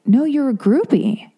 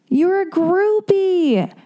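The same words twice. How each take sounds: First: Higher, slow, smug "No, you're a groupie"; insistent mock doctor. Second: Much higher, very slow, drawn-out "groupie"; sing-song mockery. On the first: The doctor overruling her, higher and slow. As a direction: press the verdict home. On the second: Mocking the doctor's repeated verdict in a high drawn-out singsong.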